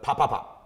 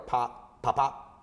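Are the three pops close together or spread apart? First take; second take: close together; spread apart. First: The three pops come quickly, close together. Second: The three pops are separated by longer gaps. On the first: The speaker calls it right. "but ... when the three together" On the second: The speaker calls it wrong.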